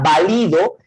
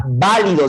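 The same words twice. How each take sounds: First: Valido stressed on the middle syllable, va-LI-do; valido, llana, stress on LI. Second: Válido stressed on the first syllable, VÁ-li-do; válido, esdrújula, stress on VÁ. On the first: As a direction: say valido with the weight on LI. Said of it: "no se refiere a la palabra válido". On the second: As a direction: say válido with the weight on VÁ. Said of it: "debería tener tilde en la A". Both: Shown as a demonstration.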